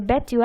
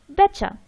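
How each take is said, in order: First: The two words are said separately and fully. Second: The two words are blended into one reduced word.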